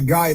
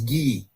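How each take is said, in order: First: The name is said like English 'guy'. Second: The name is said like French 'ghee'.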